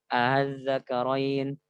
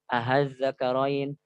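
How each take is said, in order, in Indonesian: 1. Hamzah diringankan, berada di antara hamzah dan vokal. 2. Bunyi hamzah yang diringankan diubah menjadi h. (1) "meringankan antara hamzah dengan alif" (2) "mengubahnya kepada huruf H ... itu salah"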